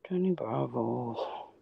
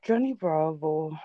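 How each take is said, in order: First: Much lower, very slow, soft cartoon hunk; Johnny Bravo voice. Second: A hint of a lower, slowed cartoon hunk voice; Johnny Bravo voice. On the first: Streamer doing the cartoon voice his friend wouldn't do, deep and slow. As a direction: drawl it out deep like a lunk admiring himself. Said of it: "Can you do the Johnny Bravo voice?". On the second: Streamer trying out the cartoon voice for his friend, lightly done. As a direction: lightly put on the cartoon lunk's swagger. Asked to do the voice.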